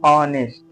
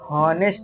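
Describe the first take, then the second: First: The word starts directly with an o vowel. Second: The word starts with an audible h sound. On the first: The speaker calls it right. "इसको हम उच्चारण करते हैं, बोलते हैं ऑनेस्ट। क्या बोलते हैं?" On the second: The speaker calls it wrong. "हम इसको हॉनेस्ट नहीं बोलते हैं"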